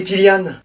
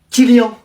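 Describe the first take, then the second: First: "Kylian" with a clear "ann" ending, not nasal; "Kylian" as the student says it; student's correction. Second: "Kylian" read off the list with a nasal "an" ending; "Kylian" as the teacher says it; teacher's reading. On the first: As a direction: correct your name to "Kylian" with a plain "an". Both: Shown as a demonstration. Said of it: "Moi, c'est Kylian".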